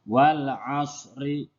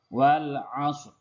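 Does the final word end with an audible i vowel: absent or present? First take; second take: present; absent. First: The last word ends with an i vowel. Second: The last word ends on a consonant. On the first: This is how it is written. "Tulisannya wal asri" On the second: This is how it is read aloud at the verse end. "kita membacanya dengan wal asr"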